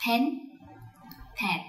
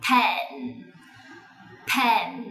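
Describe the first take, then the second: First: "pen" as a short toned Vietnamese syllable; Vietnamese-style mispronunciation. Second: "pen" with puffed p, short e, humming n; English sound-by-sound model. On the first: Teacher showing how Vietnamese usually read "pen", Vietnamese-style. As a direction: say "pen" the Vietnamese way, without a drawn-out nasal ending. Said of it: "Từ này chúng ta hay đọc trong tiếng Việt". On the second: Teacher spelling out sounds for children, correct English "pen". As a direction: let "pen" ring out on its nasal n, English-style. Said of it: "cùng đánh vần từng âm tiết".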